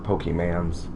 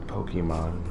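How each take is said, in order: First: The word ends with a 'mans' sound. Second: The word ends with a 'mon' sound. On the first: The speaker calls it wrong. "Don't say it like that" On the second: The speaker calls it right. "I'm sorry"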